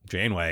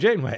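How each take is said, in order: First: The name is said with a displeased, groaning tone. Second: The name is said with a cheerful, excited tone. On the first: The speakers once disliked the character. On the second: The speakers now like the character.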